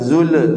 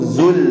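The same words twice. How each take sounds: First: The final sound bounces with an extra echo. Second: The final sound stops cleanly without bouncing. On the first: The speaker calls it wrong. "jangan zul" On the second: The speaker calls it right. "tapi cukup zul"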